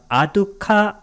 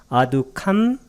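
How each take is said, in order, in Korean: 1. 이 단어는 모음으로 끝나고 m이 없습니다. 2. 이 단어는 덧붙은 m 소리로 끝납니다. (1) "아수카가 아니라" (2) "이렇게 발음됩니다"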